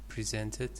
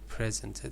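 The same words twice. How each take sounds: First: The stress is on the second syllable. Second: The stress is on the first syllable. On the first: The speaker calls it right. "the second syllable is stressed" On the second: The speaker calls it wrong. "You said presented"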